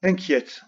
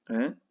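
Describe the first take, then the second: First: Said in the usual way. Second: INQUIÈTE split into in, qui, ète with long pauses; inquiète dictated one separated syllable at a time. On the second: Shown as a demonstration. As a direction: say inquiète very slowly in pieces, as if writing it. Sounding it out while writing it.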